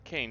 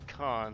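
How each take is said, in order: First: The name has an 'ay' vowel, like 'cane'. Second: The name has an 'ah' vowel, like 'con'. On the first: The speaker calls it wrong. "it's not Kane" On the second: The speaker calls it right. "it's Kahn. They pronounce it right"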